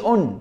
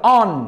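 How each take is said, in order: First: The vowel is a rounded 'oh' sound. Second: The vowel is an open 'ah' sound. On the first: The speaker calls it wrong. "ما تقولش on" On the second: The speaker calls it right. "هتقولها كده on"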